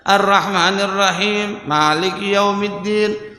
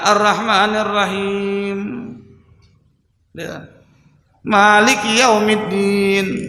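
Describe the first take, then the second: First: The two verses flow on without a long pause. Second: A long pause separates the two verses. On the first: The speaker calls it right. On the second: The speaker calls it wrong. "Jangan ... ada jeda tuh"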